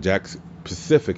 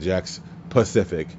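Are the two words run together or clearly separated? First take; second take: run together; separated. First: It is said at normal speed, run together. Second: It is said slowly, with the words clearly separated. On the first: The speaker calls it wrong. "See, still sounds the fucking same" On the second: The speaker calls it right. "I just slow down my entire speech and be like"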